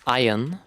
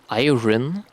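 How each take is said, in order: First: The R sound is left out. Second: The R sound is clearly pronounced. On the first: The speaker calls it right. "it's called iron, and you don't pronounce the R" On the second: The speaker calls it wrong. "it's not called iron"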